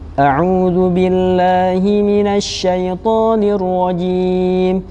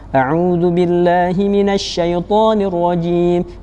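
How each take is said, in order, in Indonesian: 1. Dibaca dengan tempo sedang. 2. Dibaca cepat. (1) "bacaan yang sedang, tidak terlalu cepat dan tidak terlalu lambat" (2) "yang fast atau cepat"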